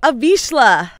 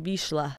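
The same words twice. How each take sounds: First: Vizsla said louder, slowly and clearly; clear repeat. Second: Vizsla murmured low and soft; soft to herself. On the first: Shown as a demonstration. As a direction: spell out Vizsla clearly for a confused friend. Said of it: "I'm sorry, what?". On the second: Real, not acted. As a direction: try Vizsla quietly, half to yourself. Repeats the breed name to herself.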